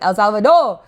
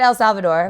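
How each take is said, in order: First: It is said with a Spanish accent. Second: It is said with a plain English accent.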